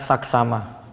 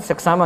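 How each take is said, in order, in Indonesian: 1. Suku kata pertama memiliki vokal 'a'. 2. Suku kata pertama memiliki vokal 'e'. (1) "sekarang saksama. Sudah tepat" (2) "Dulu kita bilang"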